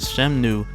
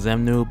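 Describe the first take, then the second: First: The name begins with an S sound. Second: The name begins with a Z sound. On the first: "the S sounding Shemnu" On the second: "the Z sounding Xemnu"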